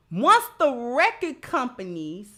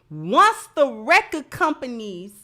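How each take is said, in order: Both takes have the same delivery.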